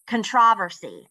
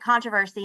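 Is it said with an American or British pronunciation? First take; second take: British; American. First: It is said with a British pronunciation. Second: It is said with an American pronunciation.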